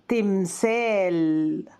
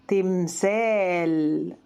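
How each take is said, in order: The two takes are said the same way.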